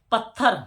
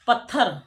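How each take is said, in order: Both takes have the same delivery.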